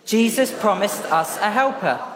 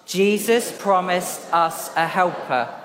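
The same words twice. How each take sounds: First: It is said very fast. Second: It is said at a normal pace.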